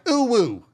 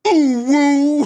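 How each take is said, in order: First: It is said in an excited normal voice. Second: It is said in a loud Darth Vader voice.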